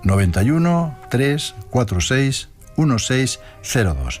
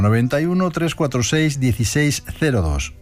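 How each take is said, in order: First: The number is read slowly. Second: The number is read at normal speed.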